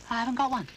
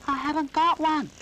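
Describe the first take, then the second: First: Put-on high, timid little boy voice; Noddy's high childish voice; little toy boy. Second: Much higher and louder, shouted to be heard; Noddy shouting his answer. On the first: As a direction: apologise like a small toy. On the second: Acted. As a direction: shout it over the wind. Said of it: "You'll have to shout".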